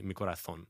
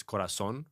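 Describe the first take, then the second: First: "corazón" with a th sound for the z; Spain-style "corathón"; Castilian pronunciation. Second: "corazón" with an s sound for the z; plain s in "corazón"; Latin American pronunciation. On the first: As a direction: lisp the z in "corazón" like a Spaniard. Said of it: "the Spanish will say". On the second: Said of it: "like, Spanish, it's corazón". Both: Shown as a demonstration.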